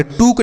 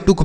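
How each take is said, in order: First: टुक with a drawn-out long oo, toook; wrong long vowel. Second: टुक with a short, quick u; short vowel. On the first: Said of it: "टुक नहीं पढ़ते हैं". (टुक को लंबे 'ऊ' से) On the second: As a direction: keep the vowel of टुक brief. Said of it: "इसे हम टुक पढ़ेंगे". (टुक को छोटे 'उ' से) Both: Shown as a demonstration.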